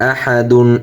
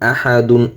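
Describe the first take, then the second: The two takes are said the same way.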